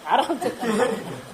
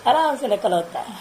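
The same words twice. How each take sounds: First: आराम से drawn out slowly and softly, half laughing; amused, unhurried आराम से; slow and calm. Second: Said in the usual way. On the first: Shown as a demonstration. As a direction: stretch आराम से slowly with a chuckle. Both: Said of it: "हड़बड़ा के नहीं, घबरा के नहीं".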